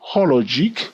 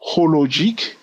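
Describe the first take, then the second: First: It is said in a put-on American accent. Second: It is said in the speaker's usual accent.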